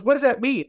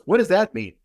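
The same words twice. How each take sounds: First: Higher, lightly voiced woman, more baffled; mock-bewildered high question from the lady; bewildered repeat. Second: Lightly voiced woman asking, a touch puzzled; a hint of the lady wondering aloud; mild puzzled question in a retold woman's voice. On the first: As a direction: imitate her asking again, incredulous. Woman asks again, more bewildered. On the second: Woman asks in retold dialogue.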